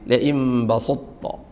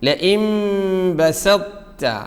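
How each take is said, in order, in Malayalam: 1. s ശബ്ദം ഘനവും ശക്തവുമാണ്. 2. s ശബ്ദം ലഘുവും മൃദുവുമാണ്. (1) "സ സ്വാദായിട്ട് ലഇം ബസൊത്തോ പറ്റില്ല" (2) "നേരെ തയിലേക്ക് ചെറിയൊരു ശബ്ദത്തോടു കൂടി"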